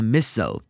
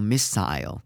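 First: It is said with an American pronunciation. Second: It is said with a British pronunciation.

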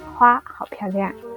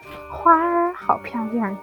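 First: The word for flower ends without an r-sound. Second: The word for flower ends with an r-sound. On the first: This is the Taiwanese way of saying it. "台湾我们不用日化音" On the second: This is the mainland Chinese way of saying it. "你要用儿化音"

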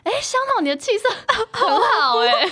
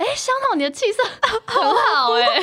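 First: It is said with high, exaggerated pitch. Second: It is said with high, exaggerated pitch.

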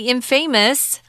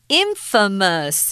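First: The word ends sounding just like 'famous'. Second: The word ends sounding unlike 'famous'. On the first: The speaker calls it wrong. "Don't say infamous. That's wrong" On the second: The speaker calls it right. "this is pronounced differently"

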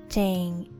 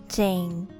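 The two takes are said the same way.

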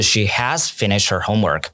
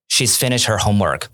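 First: She has is said as two full words. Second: She has is contracted into one syllable. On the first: The speaker calls it wrong. "而不是she has finished her homework" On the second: The speaker calls it right. "你说的是She's finished her homework"

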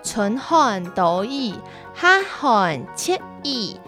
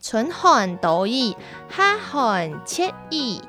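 The two takes are said the same way.

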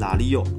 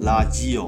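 First: The middle consonant is an l sound. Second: The middle consonant is a j sound. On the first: "进入台语变拉利哦" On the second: "其实念拉基哦"

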